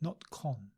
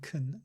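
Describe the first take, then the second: First: The vowel is a full open vowel. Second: The vowel is a reduced schwa sound. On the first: The speaker calls it wrong. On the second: The speaker calls it right. "notice the schwa in kun"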